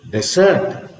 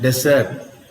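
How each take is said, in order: First: The stress is on the second syllable. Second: The stress is on the first syllable. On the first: Being left alone or ignored. "when you have the stress on the second syllable" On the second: A place with only sand. "when you have the stress on the first syllable"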